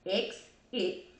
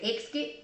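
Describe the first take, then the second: First: It is said slowly, in two separate parts. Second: It is said with an extra k sound. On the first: The speaker calls it right. "I used to have to say it slow. X it to get it right" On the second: The speaker calls it wrong. "I used to say exit. I don't know why I put a K in it"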